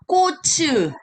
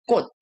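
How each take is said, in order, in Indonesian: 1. Konsonan akhir dilepas dengan vokal. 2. Kata ini berakhir dengan t pendek yang tidak dilepas. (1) "kadang-kadang ada yang bacanya ko츠, tapi itu salah" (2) "Jadi ini bacanya harusnya 꽃 begitu"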